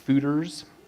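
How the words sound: The word is said with an American pronunciation. "I think Fooders is the American way of pronouncing it"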